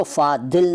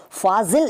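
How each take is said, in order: First: फादिल with d replacing z. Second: Said in the usual way. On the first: Shown as a demonstration. Teacher showing what is not said, फादिल with d for z. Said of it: "नहीं कहते". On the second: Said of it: "फादिल नहीं कहते".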